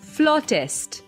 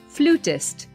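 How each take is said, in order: First: The first vowel sounds like 'aw' in flaw. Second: The first vowel sounds like 'oo' in flute. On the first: The speaker calls it right. "It's supposed to be flautist" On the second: The speaker calls it wrong. "people may pronounce it as flutist. But that's not the right way"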